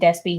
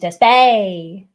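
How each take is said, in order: First: The name is said in a plain accent. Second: The name is said in a Texas accent. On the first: "Instead of saying Despy" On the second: "I love the Texas accent"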